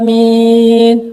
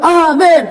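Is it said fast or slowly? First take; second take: slowly; fast. First: It is said very slowly. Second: It is said quickly.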